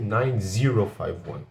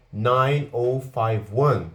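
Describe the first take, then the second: First: Said in the usual way. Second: "nine oh five one" with "oh" for zero, said slowly. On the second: Shown as a demonstration. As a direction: read the digits slowly, saying "oh" instead of zero. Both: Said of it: "é muito mais comum do que".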